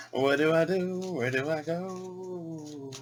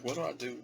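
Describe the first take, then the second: First: Sung, high, drawn-out singsong wail; sung, mock helpless wail. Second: High, soft helpless question; mock helplessness. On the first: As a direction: croon it high, stretching the last word long. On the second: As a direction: ask yourself softly, pitched up, at a loss. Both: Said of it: "I'm like".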